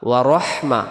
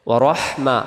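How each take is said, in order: The two takes are said the same way.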